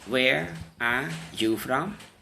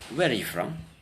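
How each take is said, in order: First: Each word is said separately and clearly. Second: The words run quickly together, some unclear. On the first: The speaker calls it wrong. "native speakers won't say" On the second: The speaker calls it right. "They'll probably say"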